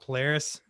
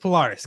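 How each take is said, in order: First: It is said the American way. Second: It is said the Australian way. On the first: The speaker calls it wrong. "not Polaris, as the Americans would say" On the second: The speaker calls it right. "every Australian guy I interviewed on the show said Polaris"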